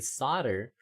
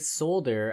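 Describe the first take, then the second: First: The L sound is left out. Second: The L sound is clearly pronounced. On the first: This is the American way of saying it. "Americans say solder. ... Americans kept the fourteenth century pronunciation" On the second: This is the British way of saying it. "British people say solder. ... British may have started pronouncing the L"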